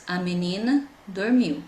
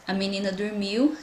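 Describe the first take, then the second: First: "A menina", a short break, then "dormiu"; teacher parting "menina" from "dormiu" with a pause; word by word. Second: Said in the usual way. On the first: Shown as a demonstration. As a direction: separate the words of "A menina dormiu" for counting. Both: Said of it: "tem três palavras".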